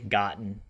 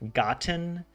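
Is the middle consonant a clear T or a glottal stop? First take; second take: glottal stop; clear T. First: The middle consonant is a glottal stop. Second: The middle consonant is a clear T sound. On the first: "I think it's a glottal stop" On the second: "Instead of like saying a T"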